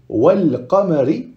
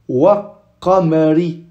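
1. Le l est prononcé devant un q simple. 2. Le l est omis et le q est doublé. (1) "c'est simple" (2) "en dédoublant le qaf? ... c'est difficile à prononcer"

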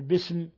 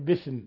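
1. الحرف الصامت في الوسط صوت س واضح. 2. الحرف الصامت في الوسط صوت ث. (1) "بدل أن يقول بسم" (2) "يقول بثم"

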